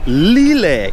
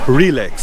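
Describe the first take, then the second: First: It is said imitating a Thai accent. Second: It is said in the speaker's plain accent.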